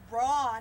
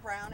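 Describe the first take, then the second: First: The name is said with a German vowel sound. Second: The name is said like the English word brown. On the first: This is the original form of the name. The speaker calls it right. "it's Braun" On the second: This is the Americanized form of the name. The speaker calls it wrong. "it's not Brown"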